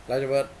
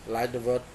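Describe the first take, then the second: No difference in how they are said.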